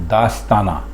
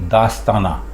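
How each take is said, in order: Both takes have the same delivery.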